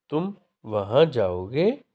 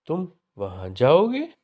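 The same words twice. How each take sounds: First: तुम, short pause, वहाँ stressed before जाओगे; statement giving an order. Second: तुम वहाँ जाओगे asked, with जाओगे rising high and loud; questioning tune. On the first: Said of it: "किसी को भेजने का आदेश". (तुम वहाँ जाओगे, आदेश के भाव में) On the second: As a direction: turn it into a question by lifting जाओगे. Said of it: "भेजने के संबंध में प्रश्न पूछा जा रहा है". (तुम वहाँ जाओगे, जाओगे पर चढ़ता प्रश्न का सुर) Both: Shown as a demonstration.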